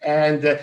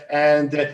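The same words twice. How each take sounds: The two takes are said the same way.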